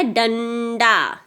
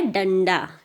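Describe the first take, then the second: First: "डंडा" very slow, nasal and final aa held long; dragged nasal sound. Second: "डंडा" less stretched, as dan-da; shorter dan sound. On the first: Teacher contrasting sounds, "डंडा" dragged out. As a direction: stretch both syllables of "डंडा". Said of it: "डंग की एक sound आती है". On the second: Teacher contrasting sounds, "डंडा" as shorter dan-da. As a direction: close "डंडा" briskly on dan, then da. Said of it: "कि डन की sound". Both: Shown as a demonstration.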